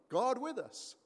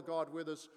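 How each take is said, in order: First: God with us lifted higher and louder, stress on God; emphatic. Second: Said in the usual way. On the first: Real, not acted. Pastor proclaims Jesus as God with us, stressing God.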